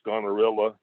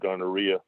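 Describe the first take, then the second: First: The name ends with a 'rilla' sound. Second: The name ends with a 'rhea' sound. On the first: "which I suppose could be pronounced gonorilla" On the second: "when I give presentations, I always pronounce it gonorrhea"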